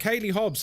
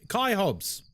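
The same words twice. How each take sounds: First: "Kaylee Hobbs" read as two syllables, KAY-lee; mispronounced name. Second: "Kai" said as one syllable, rhymes with eye; "Kai Hobbs" with a short single-syllable Kai; corrected name. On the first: Real, not acted. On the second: Shown as a demonstration. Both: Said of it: "It's pronounced Kai".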